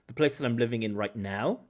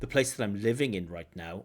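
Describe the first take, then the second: First: The stress falls on the words right now. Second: The stress falls on the word living. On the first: "or even right now" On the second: "the stress really should be on living"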